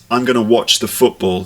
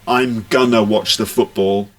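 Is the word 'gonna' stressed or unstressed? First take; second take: unstressed; stressed. First: The word gonna is said without stress. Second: The word gonna is said with strong stress. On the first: The speaker calls it right. "it's not a stressed word" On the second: The speaker calls it wrong. "don't stress it"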